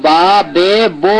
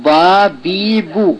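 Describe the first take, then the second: First: Drawn-out বা বে বো with e and o; wrong vowel sounds. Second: Slow, drawn-out বা বি বু with pure a, i, u; correct vowel sounds. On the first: Teacher showing what not to say, majhul vowels. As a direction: stretch বে and বো on open majhul vowels. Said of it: "নয়". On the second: Teacher modelling the right sounds, slow pure vowels. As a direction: stretch বি and বু on closed vowels. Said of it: "সঠিক উচ্চারণটা হবে". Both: Shown as a demonstration.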